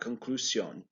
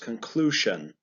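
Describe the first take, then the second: First: The middle consonant is not a 'sh'-type sound. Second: The middle consonant is a 'sh'-type sound. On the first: The speaker calls it wrong. "It's not conclusion" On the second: The speaker calls it right. "S I O N also makes a sh sound"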